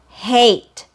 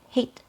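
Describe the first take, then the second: First: The vowel is long, gliding from open upward. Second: The vowel is clipped short, with no glide. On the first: The speaker calls it right. "So it's a long vowel sound" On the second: The speaker calls it wrong. "that's too short"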